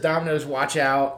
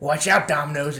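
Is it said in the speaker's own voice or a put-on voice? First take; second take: own voice; put-on voice. First: It is said in his own normal voice. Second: It is said in a put-on Argyle voice.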